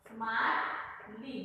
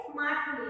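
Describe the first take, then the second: First: Slow, drawn-out smartly, each syllable spelled out; slow dictation. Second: Said in the usual way. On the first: Shown as a demonstration. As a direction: dictate smartly slowly as you write it. Writes the word on the board.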